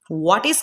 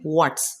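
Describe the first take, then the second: First: Two separate full words are said. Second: The words merge into one short syllable.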